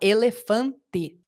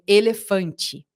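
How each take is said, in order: First: Every E is said as a plain E sound. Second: One E is said with an I sound. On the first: This is how the word is written. The speaker calls it wrong. "Ninguém que eu conheço fala elefante" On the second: This is how people actually speak. The speaker calls it right. "a gente muda esse E pra esse som de I aqui"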